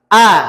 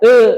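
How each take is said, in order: First: The mouth opens wide for a clear a. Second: The teeth stay close, giving a muffled e. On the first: The speaker calls it right. "Jadi dibuka a" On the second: The speaker calls it wrong. "jangan dirapetkan"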